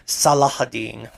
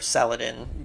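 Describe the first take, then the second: First: The name is said in a longer form with an h. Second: The name is said in its short anglicized form. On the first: This is the original form of the name. "I believe the correct pronunciation of his name is" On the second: This is the usual Western form of the name. "in English in, or in American European culture, we refer to him as"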